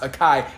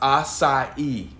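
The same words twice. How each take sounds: First: The middle consonant is a k sound. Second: The middle consonant is an s sound. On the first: The speaker calls it wrong. "It's not pronounced acai" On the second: The speaker calls it right. "It's pronounced acai"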